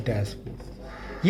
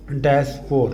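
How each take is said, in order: First: डैशपोर whispered very slowly and much softer; a slow whispered डैशपोर for pupils to remember. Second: Said in the usual way. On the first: Shown as a demonstration. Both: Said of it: "आप साथ साथ बोलेंगे".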